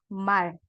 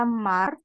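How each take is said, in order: First: "mal" ending in a clear L; right reading. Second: Slow "mar" with an R at the end; wrong reading. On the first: Teacher giving the student the right reading, clear "mal". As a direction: say "mal", finish on an L. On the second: Teacher showing the student the wrong reading, slow "mar". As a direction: sound out the wrong "mar" slowly. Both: Shown as a demonstration. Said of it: "tapi dibacanya mal".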